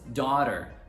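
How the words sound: It is said in an American accent. "Para os americanos"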